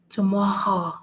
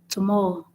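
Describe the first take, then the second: First: It has a French accent with a strong R. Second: It has an English accent with a light R.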